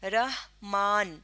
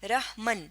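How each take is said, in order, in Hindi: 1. दूसरे अक्षर में लंबा aa स्वर है। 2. दूसरे अक्षर में छोटा a स्वर है। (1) "दो ज़बर की आवाज़ के लिए हम खड़ा ज़बर इस्तेमाल करते हैं" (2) "मीम पे अगर हम सिर्फ ज़बर लगाएं"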